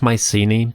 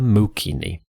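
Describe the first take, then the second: First: It is said with the common English pronunciation. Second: It is said with an 'oo' and a hard 'k'. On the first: This is the usual modern English form. "that's the most common version in English" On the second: This is closer to the ancient form. "the original pronunciation is closer to Mukini"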